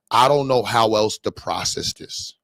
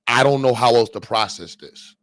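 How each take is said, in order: First: Drawn out slowly in disbelief; slow, stunned. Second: Said in the usual way. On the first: Shown as a demonstration. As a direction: let each word hang, baffled.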